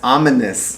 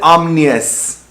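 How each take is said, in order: First: A short vowel sits between the M and N. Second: The M and N run together with no vowel. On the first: The speaker calls it right. "That's ominous" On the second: The speaker calls it wrong. "She said it wrong"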